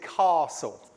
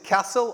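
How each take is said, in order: First: It is said with a long southern vowel. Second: It is said with a short northern vowel.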